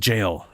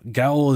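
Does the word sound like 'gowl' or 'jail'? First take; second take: jail; gowl. First: It is said as 'jail', starting with a j-sound. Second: It is read as 'gowl', rhyming with 'owl'. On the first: The speaker calls it right. "It's literally pronounced jail" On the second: The speaker calls it wrong. "my brain starts to say Gowl ... that's not how it's pronounced"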